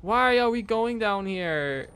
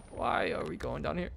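First: High, drawn-out wail of protest; long, reluctant moan of dread; dreading whine. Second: Softer repeated question, rising at the end; small, resigned nervous question; subdued dread. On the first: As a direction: whine it slowly, pitched up. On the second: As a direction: ask it under your breath, uneasily. Repeats the question more quietly. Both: Real, not acted.

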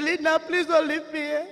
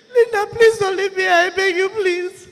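First: Said in the usual way. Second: Loud, tearful, higher begging; crying plea. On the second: Retold or imitated. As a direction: beg through tears, louder. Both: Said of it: "he said".

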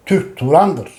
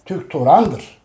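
The two takes are said the same way.

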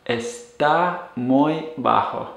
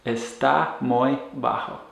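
First: Está muy bajo slowly, each word apart; está muy bajo said for learners; slow model phrase. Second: Está muy bajo echoed softly; está muy bajo repeated quietly. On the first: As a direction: despacio. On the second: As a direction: repetido en voz baja. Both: Shown as a demonstration. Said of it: "using the verb estar".

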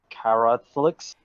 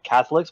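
First: "Catholics" said as car-ROTH-licks; carrot pun pronunciation. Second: Said in the usual way. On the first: Shown as a demonstration. Explaining the comic's pun, "Catholics" said as car-ROTH-licks. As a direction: blend carrot into the word "Catholics". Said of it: "but I suppose it's". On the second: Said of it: "play on words with Catholics".

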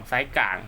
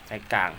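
No difference in how they are said.

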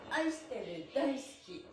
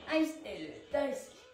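No difference in how they are said.

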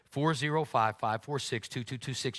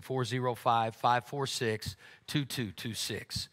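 First: Said in the usual way. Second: The number spelled out slowly, digit by digit; slow dictation. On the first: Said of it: "repeats the text number". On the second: Shown as a demonstration. Pastor gives the congregation the text number, slow and careful. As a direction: dictate each digit slowly so they can write it down. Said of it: "reads giving text number to congregation".

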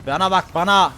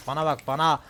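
First: Louder and higher, yelled at the enemy; taunting shout. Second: Said in the usual way. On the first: Real, not acted. Gamer yelling at his opponent mid-fight, loud taunting shout. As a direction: bellow it as a taunt.

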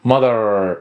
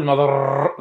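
First: Mother with a curled R, lower; American R. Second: Mother said with the wrong R. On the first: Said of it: "أو تلفظ لهجة بريطانية". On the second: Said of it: "غلط، ر هذه غلط". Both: Shown as a demonstration.

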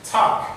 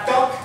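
First: "talk" with a puff of air on T; aspirated T. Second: "talk" with a hard French T, no puff; wrong "talk", T without air; unaspirated T. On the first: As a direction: burst air through the T of "talk". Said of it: "mais c'est te". (« talk » avec un T soufflé) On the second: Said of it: "c'est pas talk". (« talk » avec un T français, sans souffle) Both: Shown as a demonstration.

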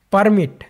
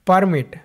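Both takes have the same delivery.

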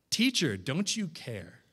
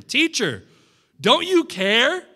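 First: Softer, lower plea; quiet reflective echo. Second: Higher, louder, slow desperate cry; panicked plea. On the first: Shown as a demonstration. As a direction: let the question sink in gently. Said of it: "How did the disciples respond?". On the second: Acted. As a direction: plead in fear of drowning. Panicked disciples wake sleeping Jesus.

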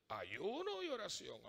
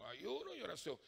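First: "Ayuno y oración" spoken slowly, each word weighed; slow emphatic. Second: Said in the usual way. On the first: Shown as a demonstration. ("Ayuno y oración", despacio y con peso)

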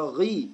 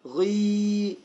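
First: غي with a brief i; short-vowel demo of غي; short kasra. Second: غي held long on a steady ee; long-vowel demo of غي; long yaa vowel. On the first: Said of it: "غين كسرة". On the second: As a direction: stretch the vowel of غي well out. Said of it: "يعني كسرة طويلة". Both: Shown as a demonstration.

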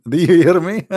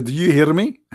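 First: Reading it through a laugh; mocking chuckle over the words. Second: Said in the usual way. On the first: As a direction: laugh while reading the text back. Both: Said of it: "He says".

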